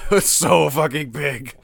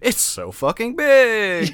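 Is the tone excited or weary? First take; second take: weary; excited. First: It is said with a tired, groaning tone. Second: It is said with upbeat, enthusiastic energy. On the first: The size feels overwhelming and tiresome. "And I'm like, ugh" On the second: The size is a selling point to be celebrated. "a marketing person would say and have a different inflection and be like"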